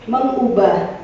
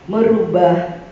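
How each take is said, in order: First: An ng sound comes before the u. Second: An r sound comes before the u. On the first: The speaker calls it right. "Ketika mendapat awalan me" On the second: The speaker calls it wrong. "Mengapa harus ada huruf R di antara itu ketika kita mengucapkannya?"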